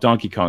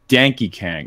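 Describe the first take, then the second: First: The name has its usual 'o' vowels. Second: The name's vowels are changed to 'a' sounds. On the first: The speaker calls it wrong. "it's not called Donkey Kong" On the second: The speaker calls it right. "it's called Danky Kang"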